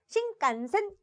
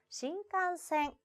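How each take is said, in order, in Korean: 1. 이 단어는 짧은 세 박자로 발음합니다. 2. n 소리를 반 박자 더 길게 끕니다. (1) "이렇게 세 박자로 읽나요? 아니라고요" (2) "반박자 끌어줘야죠"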